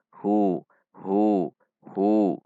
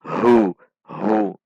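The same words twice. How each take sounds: First: "Hu" with an easy, everyday h; ordinary ha. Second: "Hu" pushed loudly from deep in the throat; too-deep ha. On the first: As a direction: say "Hu" like an Indonesian h. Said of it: "biasa saja seperti ha bahasa Indonesia". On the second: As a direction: overdo the h of "Hu" with heavy breath. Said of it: "Tidak dibaca terlalu ke dalam". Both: Shown as a demonstration.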